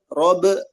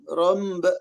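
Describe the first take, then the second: First: The b is clean, with no nasal m. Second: A nasal m sound slips before the b. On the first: The speaker calls it right. "contoh robe robe" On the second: The speaker calls it wrong. "jadi ada suara-suara mimnya gitu nah itu hati-hati"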